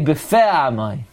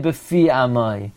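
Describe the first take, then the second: First: The first word's vowel is an 'eh' sound. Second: The first word's vowel is not an 'eh' sound. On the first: The speaker calls it right. "besegal. ... You say befe amai" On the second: The speaker calls it wrong. "You don't say befi amai"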